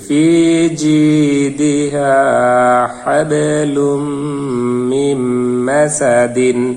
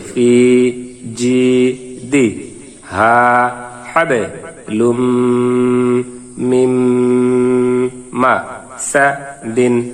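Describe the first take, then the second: First: The syllables are joined smoothly without breaks. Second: Each syllable is said separately with breaks. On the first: "মিলিয়ে পড়ি" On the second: "ভাঙ্গা ভাঙ্গা উচ্চারণ করি"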